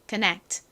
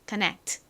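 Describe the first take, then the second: Both takes have the same delivery.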